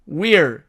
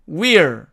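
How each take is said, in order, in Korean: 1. w 뒤의 모음은 분명한 ee 소리예요. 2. w 뒤의 모음은 분명한 ee 소리예요.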